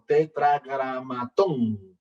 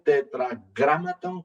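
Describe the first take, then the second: First: Tetragramatón said with stress on the last syllable, te-tra-gra-ma-TÓN; stress on the final O. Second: Tetragramaton said with stress on GRA, te-tra-GRA-ma-ton. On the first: Teacher showing the other spelling, tetragramatón stressed on TÓN. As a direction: say tetragramatón landing hard on TÓN. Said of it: "con tilde en la O". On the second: Teacher showing one spelling, tetragramaton stressed on GRA. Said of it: "algunos escriben tetragramaton con tilde en la A". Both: Shown as a demonstration.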